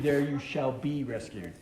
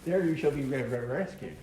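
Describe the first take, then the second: First: It is said smoothly in a normal voice. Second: It is stuttered in an Elmer Fudd voice.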